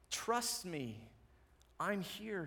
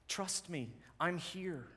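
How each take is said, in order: First: Softer, quietly tender promise; soft reassurance. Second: Softer, gentle Jesus reassuring a father; soft reassurance. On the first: Jesus softly repeating his promise to us, tender. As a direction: lean in and reassure him gently. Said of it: "he says". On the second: Jesus softly reassuring a frightened father, gentle. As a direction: say it like a quiet promise. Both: Acted.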